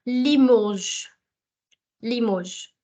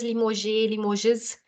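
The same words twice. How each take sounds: First: Limoges as "lee-mozh", drawn out; correct French pronunciation. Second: Limoges misread as "lee-mo-zhay", then "lee-mo-zhiz"; wrong pronunciation. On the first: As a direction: say Limoges slowly with a silent S, ending in "zh". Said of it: "It's Limoges". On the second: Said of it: "please don't sound it as". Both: Shown as a demonstration.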